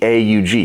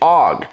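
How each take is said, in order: First: Each letter is said out separately. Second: It is said as one single word. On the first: This is how it is said in Europe. The speaker calls it right. "You're supposed to say each letter instead of saying the word" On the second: This is how many Americans say it. The speaker calls it wrong. "a lot of people here in the United States call it"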